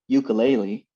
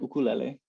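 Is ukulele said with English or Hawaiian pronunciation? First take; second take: English; Hawaiian. First: It is said with English-speaker pronunciation. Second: It is said with Hawaiian pronunciation.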